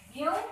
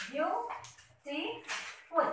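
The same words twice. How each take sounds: First: Said in the usual way. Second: Very slow, each syllable pulled apart; teacher counting syllables in "Beautiful" slowly. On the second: Shown as a demonstration. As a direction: stretch "Beautiful" out slowly so every syllable is heard. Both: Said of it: "You have three syllables".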